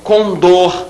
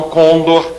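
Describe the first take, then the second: First: "condor" said slowly as con-DOR; weight the final DOR of "condor"; stress on last syllable. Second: "condor" as CON-dor, weak ending; mistaken first-syllable stress. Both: Shown as a demonstration. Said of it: "e não condor".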